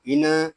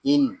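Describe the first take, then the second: First: इन with an extra short vowel bounced after the न, "i-na"; wrong reading. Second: इन closed on a still न, no vowel after it; correct sukoon. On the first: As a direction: let the न of इन spill into a small "na". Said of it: "इसको इन ऐसे नहीं पढ़ेंगे". (इन के नून को हिलाकर "इ-न" पढ़ना) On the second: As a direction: rest on the न of इन without bouncing it. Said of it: "इसको पढ़ेंगे इन". (इन के नून को सुकून के साथ पढ़ना) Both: Shown as a demonstration.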